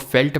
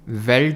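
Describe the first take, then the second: First: It begins with an f sound. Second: It begins with a v sound.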